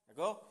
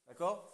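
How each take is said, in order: Both takes have the same delivery.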